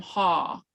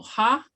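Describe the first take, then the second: First: "haw" falling in pitch, as a statement; voice goes down. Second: "ha" rising high, as a question; voice goes up. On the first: Teacher contrasting the two marks, falling tone. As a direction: let "haw" drop downward. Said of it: "your voice goes down". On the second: Teacher contrasting the two marks, rising tone. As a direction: lift "ha" upward sharply. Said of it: "your voice goes up". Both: Shown as a demonstration.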